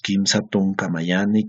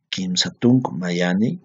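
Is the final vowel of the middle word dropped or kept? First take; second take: kept; dropped. First: The middle word keeps its final vowel. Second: The middle word drops its final vowel. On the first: "ustedes también la pueden mantener" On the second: "generalmente se elide en la pronunciación"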